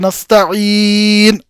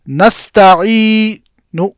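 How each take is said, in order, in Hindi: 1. आख़िरी स्वर पूरी तरह छोड़ दिया जाता है। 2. आख़िरी स्वर बस हल्के और छोटे तरीके से बोला जाता है। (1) "नून को आपने सुकून में तब्दील कर दिया" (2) "आप फकत इस मुकम्मल हरकत का तिहाई हिस्सा अदा करेंगे"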